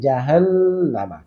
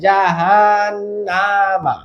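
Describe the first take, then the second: First: The vowel of the 'na' syllable is kept short. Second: The vowel of the 'na' syllable is drawn out. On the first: The speaker calls it right. "কিন্তু জাহান নাতে টান নেই" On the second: The speaker calls it wrong. "অনেকে বলে জাহান নামা এই নাতে টান দেয়"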